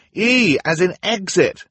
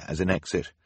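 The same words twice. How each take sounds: First: High, loud, slowed shout, E stressed. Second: Said in the usual way. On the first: Acted. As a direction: spell it out loudly over the crash. Klaus shouts over the din.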